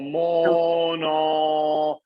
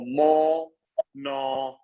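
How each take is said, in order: First: The vowel flows straight into the N sound. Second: The vowel is cut off before the N sound. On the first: The speaker calls it right. "at least connect the linking and not stop the vowel sound" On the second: The speaker calls it wrong. "It's not useful for you to break the vowel"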